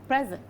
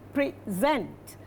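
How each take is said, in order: First: The stress is on the first syllable. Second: The stress is on the second syllable.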